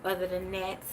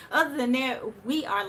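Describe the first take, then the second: First: Said in the usual way. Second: Repeated higher and louder, still laughing; laughing restart. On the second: Real, not acted. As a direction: push the words out through the laughter.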